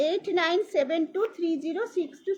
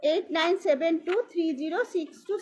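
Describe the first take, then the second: No difference in how they are said.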